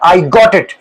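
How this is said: It is said with excitement and joy. The speaker shows joy at finally understanding. "ये आपकी feelings, आपकी excitement, आपकी जॉय express करता है"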